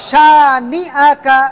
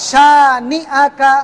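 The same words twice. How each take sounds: The two takes are said the same way.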